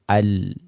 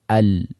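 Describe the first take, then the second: First: The final sound continues briefly. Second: The same.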